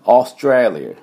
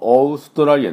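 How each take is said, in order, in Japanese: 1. 最初の母音は開いた'aw'の音です。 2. 最初の母音は日本語風の'o'です。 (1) "オー、ね、" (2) "オーストラリアじゃなくて"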